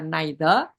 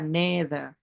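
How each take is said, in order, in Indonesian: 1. Diucapkan dengan aksen Inggris. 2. Diucapkan dengan aksen Amerika. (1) "Kalau British itu dibaca neither" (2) "kalau Amerika dibaca neither"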